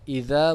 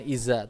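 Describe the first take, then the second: First: The middle consonant is a soft voiced th sound. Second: The middle consonant is a z sound. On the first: The speaker calls it right. "ingat idza" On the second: The speaker calls it wrong. "bukan iza"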